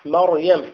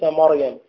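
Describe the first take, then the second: First: The meem is light and thin. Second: The meem is heavy and emphatic. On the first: The speaker calls it right. "ما مريم" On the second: The speaker calls it wrong. "هناك من يفخم الميم ... وليس مريم"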